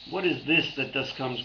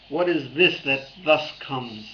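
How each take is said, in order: First: Said in the usual way. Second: Slow deliberate koan. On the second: Shown as a demonstration. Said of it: "What is that which thus comes?".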